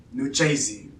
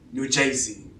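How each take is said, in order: The two takes are said the same way.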